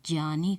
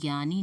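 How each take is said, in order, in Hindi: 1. यह शब्द j-y ध्वनि से शुरू होता है। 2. यह शब्द g ध्वनि से शुरू होता है। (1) "शुद्ध रूप में अगर उच्चारण करना चाहें" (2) "हम इसे ज्ञानी न कहकर"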